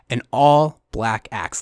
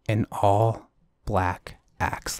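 First: It is said at a normal speed. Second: It is said very slowly.

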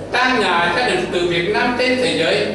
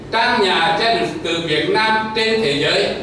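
The two takes are said the same way.

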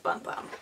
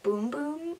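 First: The vowel is a short uh sound. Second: The vowel is a long oo sound. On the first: This is how it naturally reads. "let's be honest, like, that's bum bum" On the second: This is the supposedly official pronunciation. "Supposedly you're supposed to pronounce it Boom Boom"

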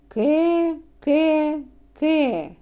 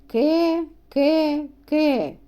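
No difference in how they are said.

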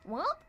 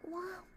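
First: It sounds confused and questioning. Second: It sounds breathy and seductive.

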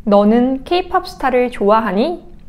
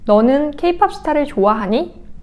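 The two takes are said the same way.

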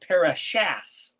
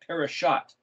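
First: The word ends with an S sound. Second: The word ends with a T sound. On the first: "If you read it in English, it says" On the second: "A parashah is spelled pereshin tav"

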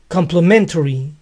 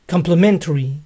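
The two takes are said the same way.

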